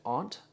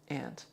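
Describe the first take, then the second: First: The word is said in a European way. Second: The word is said in a North American way. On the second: "North American"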